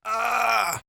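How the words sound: The voice is squeezed with heavy vocal fold pressure. "a lot of compression"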